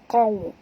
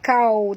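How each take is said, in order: First: The first consonant is heavy, from the throat. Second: The first consonant is a light front k. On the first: The speaker calls it right. "tapi baca kau, keluar pangkal tekak kita" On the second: The speaker calls it wrong. "jangan baca kau"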